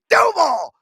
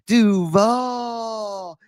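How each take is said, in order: First: The word is said briskly, without dragging the vowel. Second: The word is said with a long, dragged-out vowel. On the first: This is the usual way to say it. "You say Duval" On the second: This is how someone else says it. "It's still weird with that uh, that drag"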